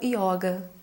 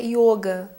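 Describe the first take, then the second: First: The o vowel is open. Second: The o vowel is closed. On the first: This is the Brazilianized form. The speaker calls it wrong. "começa a brasileirar muitas palavras, acaba falando yoga" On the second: This is the original Sanskrit form. The speaker calls it right. "o correto é yoga, porque não existe vogal aberta"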